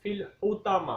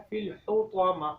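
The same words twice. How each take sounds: First: الحطمہ with a thin light ت instead of ط; wrong pronunciation. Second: الحطمہ with a full heavy ط; correct pronunciation. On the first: Teacher shows the mistake, تا in place of طا. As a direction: say الحطمہ with a plain t. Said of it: "تا کی sound کے ساتھ". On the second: Teacher models correct الحطمہ with heavy ط. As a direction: give the ط in الحطمہ its heavy sound. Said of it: "اصل میں کیا ہے". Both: Shown as a demonstration.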